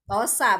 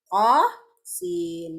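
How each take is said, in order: First: The letters are read as short joined syllables. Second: Each letter is read by its full name. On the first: The speaker calls it wrong. "bukan yasa atau tosa bacanya" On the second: The speaker calls it right. "tapi tosin"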